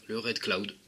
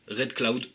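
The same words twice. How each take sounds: First: Said in the usual way. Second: Put-on "Red Cloud" said with a light English accent, "Cloud" as klaud. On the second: Vlogger announcing the next juice, in a light English accent. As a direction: pronounce "Red Cloud" the English way, a touch pleased with yourself. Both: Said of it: "mon accent anglais".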